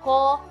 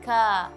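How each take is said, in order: First: The syllable is said heavy, with a rounded vowel. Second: The syllable is said light, with an open vowel. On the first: The speaker calls it wrong. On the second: The speaker calls it right. "huruf-huruf tipis"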